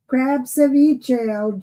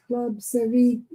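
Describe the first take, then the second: First: "Crab ceviche" slow, crab stressed with an r; corrected crab ceviche. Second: "club ceviche" read as written, club with an l; "club ceviche", a quick misreading with club. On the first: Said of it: "who said club ceviche?". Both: Shown as a demonstration.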